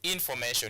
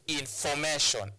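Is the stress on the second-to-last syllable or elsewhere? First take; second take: elsewhere; second-to-last. First: The stress falls away from the second-to-last syllable. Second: The stress falls on the second-to-last syllable. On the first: The speaker calls it wrong. "You don't say information" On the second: The speaker calls it right. "No, you say information"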